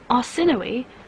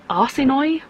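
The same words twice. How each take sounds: First: The final E is pronounced as its own syllable. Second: The final E is silent, like arse annoy. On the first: The speaker calls it right. "you pronounce the E" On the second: The speaker calls it wrong. "it sounds like you're saying arse annoy"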